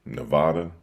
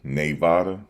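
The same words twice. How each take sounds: First: "Nevada" with a short, reduced first syllable; trying another pronunciation. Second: "Nevada" with a first syllable like NAY, rising; trying out pronunciation. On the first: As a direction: try "Nevada" as nuh-VAH-duh. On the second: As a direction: test out "Nevada" as nay-VAH-duh, questioningly. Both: Shown as a demonstration. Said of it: "How do you say Nevada?".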